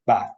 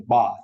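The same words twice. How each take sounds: First: "bath" with a short flat a, as in "cat"; northern bath. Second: "bath" with a long southern "ah"; educated-sounding bath. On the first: Lecturer contrasting two accents, northern short-vowel "bath". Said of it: "versus bath". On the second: Lecturer contrasting two accents, southern long-vowel "bath". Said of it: "nothing inherently educated if you say". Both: Shown as a demonstration.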